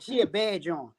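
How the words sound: It is said in an admiring, approving tone. The woman is attractive. "if she look good"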